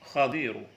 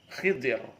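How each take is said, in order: First: The first vowel is a, then i. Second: The first vowel is i, then i. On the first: This is the better-known reading. "dibaca patah kasrah dhat" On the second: This is a less well-known reading. "Ada juga yang membaca dengan Khidir"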